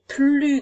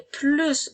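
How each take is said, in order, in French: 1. Le S final est muet. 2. Le S final se prononce. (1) "Le S est une lettre muette" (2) "Cette fois-ci, on entend le S"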